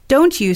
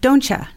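First: The two words are said fully and separately. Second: The words blend into one with a 'ch' sound.

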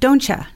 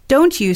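First: The t and 'you' blend into 'cha'. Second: The t and 'you' are kept separate.

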